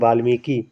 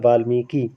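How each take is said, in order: First: The final vowel is long. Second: The final vowel is short. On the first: The speaker calls it wrong. "हम बहुत बार उच्चारण कर देते हैं ... बड़ी की मात्रा का प्रयोग कर लेते हैं" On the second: The speaker calls it right. "छोटी की मात्रा रहेगी, वो वाला आपका सही होता है"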